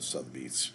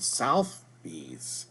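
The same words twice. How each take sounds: First: The first syllable has no 'u' sound. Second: The first syllable has an added 'u' sound. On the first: The speaker calls it right. "there's no U in there" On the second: The speaker calls it wrong. "I kept mispronouncing it"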